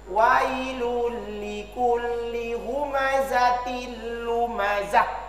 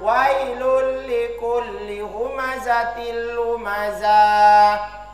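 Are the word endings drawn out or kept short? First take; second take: short; drawn out. First: The ends of the words are kept short. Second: The ends of the words are drawn out long. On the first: The speaker calls it right. "Tidak boleh dibaca panjang pada akhir" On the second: The speaker calls it wrong. "Tidak boleh dibaca ... Salah"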